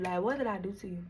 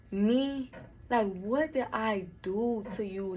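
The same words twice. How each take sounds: First: Softer, hurt repeat; quieter repeat. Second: Slow, hurt question. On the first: Repeating the question to her sister, softer. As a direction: let it fall away, hurt. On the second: Betrayed sister asking what she did, slow and hurt. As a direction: ask it slowly, wounded. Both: Retold or imitated.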